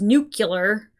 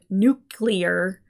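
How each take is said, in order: First: It ends in '-cular', with an extra vowel. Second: It ends in '-clear', with no extra vowel. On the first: The speaker calls it wrong. "I am somebody who mispronounces" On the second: The speaker calls it right. "the word nuclear"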